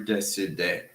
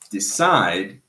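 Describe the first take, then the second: First: A vowel sound is added after the final D. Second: The word ends on the D with no vowel. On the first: The speaker calls it wrong. "Never decide. Because the E at the end of a word is not pronounced" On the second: The speaker calls it right. "Decide is the way that you pronounce it"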